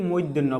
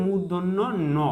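First: মূর্ধন্য slurred to "moiddhenno"; common misreading. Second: মূর্ধন্য ন as murdhonno, then a separate no; full careful model মূর্ধন্য ন; correct letter name. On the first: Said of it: "যেটা সম্পূর্ণ ভুল". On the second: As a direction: sound the u and r in মূর্ধন্য, then add ন. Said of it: "এটাকে বলতে হবে". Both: Shown as a demonstration.

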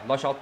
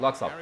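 First: Laçalt with a ch sound, la-CHALT; Laçalt okunuşu: la-çalt. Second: Laxalt with an x, lak-SALT; Laxalt, ks sesiyle: lak-salt; Laxalt said the English way. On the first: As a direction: pronounce Laçalt as la-chalt, not Laxalt. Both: Shown as a demonstration. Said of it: "Laçalt diyorum bak".

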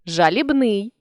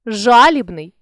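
First: Жалібний with final НИЙ stressed; stress on last syllable. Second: Жалібний with ЖА stressed; stress on first syllable. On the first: Teacher shows a stress variant, жалібний stressed on НИЙ. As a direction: land on НИЙ ending жалібний. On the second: Teacher shows a stress variant, жалібний stressed on ЖА. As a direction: punch the opening ЖА of жалібний. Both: Shown as a demonstration. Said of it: "наголосивши той чи інший склад".

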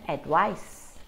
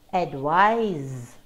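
First: "advice" ending in a hissed s sound, said slowly; final s sound. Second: "advise" ending in a buzzing z sound; final z sound. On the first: Teacher contrasting advice for students with a final s. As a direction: close "advice" on a crisp s. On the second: Teacher showing students the final z in advise. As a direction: close "advise" on a voiced z. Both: Shown as a demonstration. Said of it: "can you hear the difference in the pronunciation".

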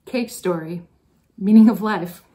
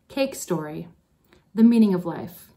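First: The class calling it out together, louder on meaning; students' loud reply. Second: Said in the usual way. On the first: Retold or imitated. Teacher quoting her advisees' request, mock loud. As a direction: echo the students' demand, punching the end. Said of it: "and you responded". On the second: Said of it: "I started a file".

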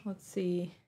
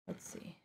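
First: Said in the usual way. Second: Breathy whispered aside to herself; whispered to herself while searching. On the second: Real, not acted. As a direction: mutter it under your breath, voiceless. Searching for glasses.

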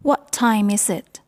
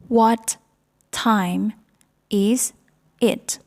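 First: Said in the usual way. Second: Each word of "What time is it?" said separately with a pause after it; slow classroom drill, one word at a time. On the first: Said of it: "teacher models the whole question". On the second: Shown as a demonstration. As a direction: break "What time is it?" into single spoken words. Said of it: "teacher drills the question word by word".

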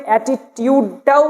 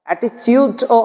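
First: "অ্যাটিটিউডটাও" with a clear t, ati-tyud; preferred pronunciation. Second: "অ্যাটিটিউডও" with ch, ati-chud; alternative pronunciation. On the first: Teacher naming the most correct form, "অ্যাটিটিউডটাও" with tyud. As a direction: say tyud, not chud, in "অ্যাটিটিউডটাও". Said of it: "সবচেয়ে সঠিক". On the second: Teacher showing what many say, "অ্যাটিটিউডও" with chud. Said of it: "অনেকে পড়ে থাকেন". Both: Shown as a demonstration.

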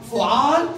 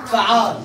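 First: فعال said fu'al, damma on the f, rising at the end; فعال with u after the f, voice lifting; فعال as fu'al, the first of two patterns. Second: فعال said fa'al, fatha on the f, falling at the end; فعال with a after the f, voice dropping; فعال as fa'al, the second pattern. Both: Shown as a demonstration. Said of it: "يعني في وزنين".

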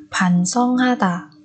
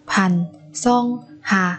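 First: Said in the usual way. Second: 반성하다 with a pause after each syllable. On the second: Shown as a demonstration. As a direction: separate every syllable of 반성하다 for learners. Teacher models word syllable by syllable.

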